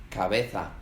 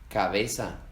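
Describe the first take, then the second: No difference in how they are said.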